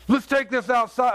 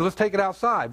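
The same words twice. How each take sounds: First: Higher-pitched mock challenge; heated challenge, imitated; retold angry threat. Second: Said in the usual way. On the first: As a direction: act out a mad man picking a fight. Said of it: "Daryl gets really mad". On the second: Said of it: "And I said".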